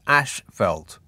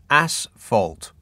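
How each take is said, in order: First: The first syllable sounds like 'ash'. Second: The first syllable sounds like 'ass'. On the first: The speaker calls it wrong. "not ashfelt" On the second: The speaker calls it right. "pronounced asphalt"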